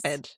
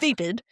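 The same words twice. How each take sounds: First: The first vowel is unlike the one in vapor. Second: The first vowel sounds like the one in vapor. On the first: The speaker calls it right. "instead of" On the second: The speaker calls it wrong. "saying vapid"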